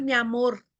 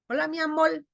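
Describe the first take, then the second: First: Said in the usual way. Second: Higher "amor" ending as amol; lambdacism. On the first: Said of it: "No es mi amor". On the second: Shown as a demonstration. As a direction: swap the final r of "amor" for l. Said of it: "en vez de la R, va la L".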